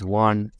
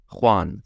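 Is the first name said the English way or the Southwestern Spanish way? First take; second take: English way; Spanish way. First: The first name is said the plain English way. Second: The first name is said the Southwestern Spanish way. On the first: The speaker calls it right. "Apparently it's not his name" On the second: The speaker calls it wrong. "or as I love to call him"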